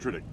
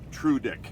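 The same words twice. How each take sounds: First: The name is said quickly. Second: The name is said at a normal speed. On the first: "So I try and say it fast" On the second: "it's pronounced Trudick"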